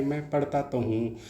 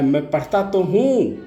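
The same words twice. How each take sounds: First: Softer, तो said lightly with no weight; just say it flat and soft; teacher contrasts the ordinary version; plain unstressed. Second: Higher, slow, pleading yell on तो; scolded boy crying out to his angry father, a yell; child yelling after a beating. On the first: Shown as a demonstration. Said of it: "ऐसे ही साधारण नहीं". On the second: Retold or imitated. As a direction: cry it out like a beaten child protesting. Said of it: "वह बड़ी तेज़ से चिल्लाया".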